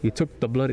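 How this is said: It is said in an attempted British accent.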